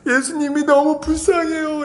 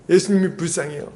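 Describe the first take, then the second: First: Higher, slow, tearful mock plea; imitating a crying girl. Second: Said in the usual way. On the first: Girl answers the teacher while weeping, mock crying. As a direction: whimper it like a sobbing teen. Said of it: "막 울면서 얘기를 하는 거예요". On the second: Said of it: "이렇게 하고 막 우는 거예요".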